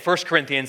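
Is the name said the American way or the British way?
American. It is said the usual American way. "Instead of saying 1 Corinthians"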